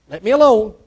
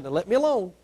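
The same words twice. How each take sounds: First: Firm repeat. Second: Quiet plea. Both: Retold or imitated. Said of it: "God said".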